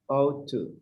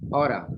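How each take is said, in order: First: It is said slowly, both words fully pronounced. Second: It is said fast, blended into oughta. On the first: "when you read it slow, ought to" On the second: "when you say it fast in conversation, you say oughta"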